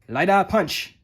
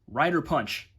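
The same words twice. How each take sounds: First: It is said with Japanese-style pronunciation. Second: It is said with plain English pronunciation. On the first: The speaker calls it right. "like you're speaking Japanese" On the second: The speaker calls it wrong. "you can't just say Rider Punch"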